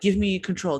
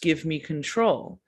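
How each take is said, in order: First: It is said in a rushed, urgent way. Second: It is said in a calm, gentle way. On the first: He is pressuring the other to hand over control. "It wasn't like" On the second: He is reassuring the other while asking for control. "He was saying it in a like a calm way"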